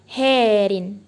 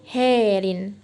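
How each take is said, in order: First: The first vowel is an e-like sound. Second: The same.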